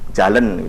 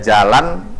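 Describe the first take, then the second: First: The final syllable has an 'e' vowel. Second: The final syllable has an 'a' vowel. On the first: This is the Duano form. "vokal A itu banyak didominasi menjadi vokal E" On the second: This is the standard Indonesian form. "ada jalan itu"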